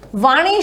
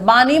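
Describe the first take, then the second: First: The word begins with a v sound. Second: The word begins with a b sound. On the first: "जैसे वाणी शब्द" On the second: "बानी बन जाता है"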